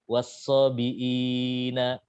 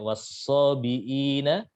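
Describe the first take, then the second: First: The lengthened vowel is held for a medium time. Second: The lengthened vowel is held for a short time. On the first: "empat harokat" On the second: "dibaca dua harokat"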